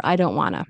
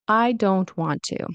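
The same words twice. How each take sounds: First: "I don't wanna" run together casually; reduced wanna. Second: "I don't want to" slowly, every T sounded; full form. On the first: Teacher shows the casual form, reduced to wanna. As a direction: stop the T of "don't", blend into "wanna". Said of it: "remember the glottal stop". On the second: Teacher shows the full form, slow and careful. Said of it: "pronounce the T fully". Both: Shown as a demonstration.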